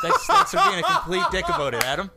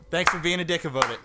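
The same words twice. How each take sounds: First: High, loud laughing complaint. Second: Said in the usual way. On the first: Real, not acted. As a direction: laugh while protesting. Laughing at teasing.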